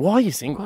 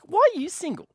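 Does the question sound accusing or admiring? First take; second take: accusing; admiring. First: The question sounds accusing and confrontational. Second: The question sounds warm and admiring. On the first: Something must be wrong with the listener. "you're almost like offending them" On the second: The listener is too good to be unattached. "you think it's a compliment"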